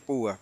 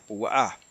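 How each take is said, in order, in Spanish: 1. La tónica está en la primera sílaba. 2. La tónica está en la última sílaba. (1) "muchos hermanos dicen Sifra y Púa" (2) "en hebreo el acento es en la A"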